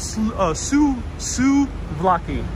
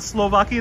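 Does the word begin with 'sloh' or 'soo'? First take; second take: soo; sloh. First: The word begins with 'soo' and no L. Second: The word begins with 'sloh' like Slovak. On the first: The speaker calls it right. "it's called Suvlaki" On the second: The speaker calls it wrong. "Not Slovaki, not like a Slovak"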